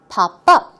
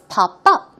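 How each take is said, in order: First: The stress falls on the second word. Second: The same.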